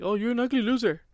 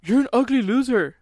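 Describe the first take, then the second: First: Retold taunt. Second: Put-on higher, louder kid's taunt yelled out a car window; retold yell. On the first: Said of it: "I said something like". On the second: Kid yelling at a boy on a bike, a loud high taunt. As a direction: shout the insult at the passing kid. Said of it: "I yelled at this kid".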